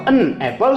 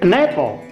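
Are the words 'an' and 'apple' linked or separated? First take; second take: separated; linked. First: The two words are said separately. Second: The n runs straight into the next word. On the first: The speaker calls it wrong. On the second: The speaker calls it right. "Gandeng aja ene, ene"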